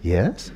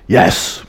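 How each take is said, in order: First: The word is said tentatively, without confidence. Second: The word is said firmly and with confidence. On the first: The speaker leaves room to back out of the answer. The speaker calls it wrong. "You don't kind of say" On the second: The speaker fully commits to the answer. The speaker calls it right. "You know how I say it in debate?"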